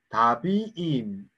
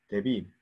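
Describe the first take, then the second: First: The first vowel is a long 'a' sound. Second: The first vowel is a short 'e' sound. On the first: The word becomes too long. The speaker calls it wrong. "다비 다비임 뭐 이러면 좋은데 그러면 너무 기니까" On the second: The vowel is shortened because the word grew longer. The speaker calls it right. "에로 벌쳐 대비임"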